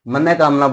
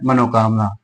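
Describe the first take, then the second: First: No vowel comes between the two parts. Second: An 'o' vowel links the two parts. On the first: The speaker calls it right. "मन कामना बोला जाता है उसे" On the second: The speaker calls it wrong. "अशुद्ध रूप होता है मनोकामना"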